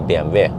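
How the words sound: The letters are said with Norwegian letter names. "in Norwegian, we also actually say B M W"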